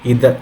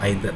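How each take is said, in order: First: The first vowel sounds like 'ee'. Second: The first vowel sounds like 'eye'. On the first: "దీన్ని ఎలా అన్నా pronounce చేయొచ్చు" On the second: "దీన్ని ఎలా అన్నా ప్రొనౌన్స్ చేయొచ్చు"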